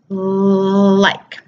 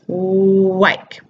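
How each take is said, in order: First: The word begins with a clear L sound. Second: The word begins with a rounded W sound. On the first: The speaker calls it right. "our lips should be neutral or almost in a slight smile" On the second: The speaker calls it wrong. "You can see when I say wike, my lips are rounded"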